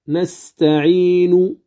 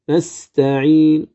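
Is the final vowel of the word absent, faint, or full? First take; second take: full; faint. First: The final vowel is pronounced fully at the stop. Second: Only a faint trace of the final vowel sounds. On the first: "لو وقفت عليها كاملة أقول نستعين" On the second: "فأتي بالروم وأقول نستعين"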